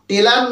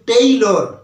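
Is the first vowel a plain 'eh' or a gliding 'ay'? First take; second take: eh; ay. First: The first vowel is a plain 'eh' sound. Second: The first vowel glides as an 'ay' sound. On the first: The speaker calls it wrong. "এটা কিন্তু টেলার নয়" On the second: The speaker calls it right. "এটা হচ্ছে টেইলর"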